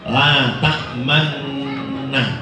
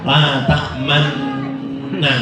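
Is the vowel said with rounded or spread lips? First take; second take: rounded; spread. First: The vowel is read plainly, then lips are rounded. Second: The vowel is read with the lips spread wide. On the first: The speaker calls it right. "Jadi biasa kemudian dingoncongkan" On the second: The speaker calls it wrong. "tidak usah"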